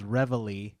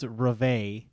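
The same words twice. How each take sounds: First: It is pronounced with English sounds. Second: It is pronounced with French sounds. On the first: "the song that you play on the bugle in the army is called Reveille" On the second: "if you were to say it in French, it's Reveille"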